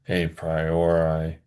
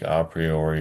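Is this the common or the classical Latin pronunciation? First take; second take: common; classical. First: It is pronounced in the common, anglicized way. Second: It is pronounced in the restored classical Latin way. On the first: This is how some other people say it. "Some people say a priori" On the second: This follows the restored classical Latin pronunciation. "more faithful to the restored high classical pronunciation of Latin"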